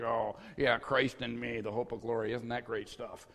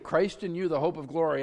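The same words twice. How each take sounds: First: Mock unimpressed, softer Christ in me; bored congregation. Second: Christ in you proclaimed with eager energy; the pastor's own excited version of the verse; excited preaching. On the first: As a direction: parrot it back with no enthusiasm. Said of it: "everybody's like". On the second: Shown as a demonstration. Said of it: "I'm up here all excited".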